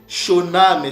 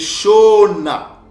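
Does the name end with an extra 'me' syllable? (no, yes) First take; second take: yes; no. First: The name ends with an extra final syllable. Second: The name ends without that extra final syllable. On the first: The speaker calls it wrong. "C'est pas Shoname" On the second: The speaker calls it right. "Mais c'est Shona"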